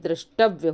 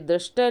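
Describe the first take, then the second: First: The word ends in a 'tavya' sound. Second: The word ends in a short 'tay' sound. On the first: The speaker calls it right. "बल्कि दृष्टव्य होता है" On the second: The speaker calls it wrong. "ये दृष्टय नहीं होता"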